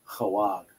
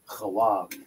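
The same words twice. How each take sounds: First: The word has two syllables, 'ha' and 'wag'. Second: The same.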